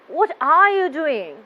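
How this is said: The voice sounds annoyed. The speaker dislikes what is happening. "The listener get the idea that I am annoyed"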